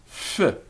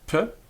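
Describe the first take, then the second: First: Air flows continuously through, like an f. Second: The consonant is a full stop with both lips. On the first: "we take the plug out" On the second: "we're using both of our lips"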